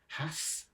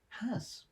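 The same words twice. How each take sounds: First: The word ends with a hissing S sound. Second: The word ends with a buzzing Z sound. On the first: "pronounced to rhyme with gas" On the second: "to rhyme with daz ... The S making a Z sound"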